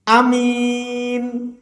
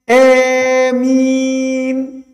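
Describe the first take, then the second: First: The first vowel is short and the m is light. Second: The first vowel is long and sounds like e. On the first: "boleh hamzahnya dibaca pendek, tidak dipanjangkan" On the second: "Imalah itu penggabungan antara suara fathah dengan kasr"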